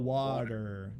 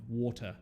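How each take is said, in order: First: It is said in an American accent. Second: It is said in a London accent. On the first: "How do Americans say water? Oh" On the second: "That's the classic. London"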